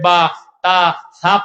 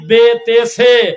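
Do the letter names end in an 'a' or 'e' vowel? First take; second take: a; e. First: Each letter name ends in an 'a' vowel. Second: Each letter name ends in an 'e' vowel. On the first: This is the newer way taught with articulation points. "আপনার নাতি এখন মক্তবে গিয়ে পড়তেছে" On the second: This is the older traditional way of reciting. "সারাটা জীবন কত আদর করে পড়েছিলেন"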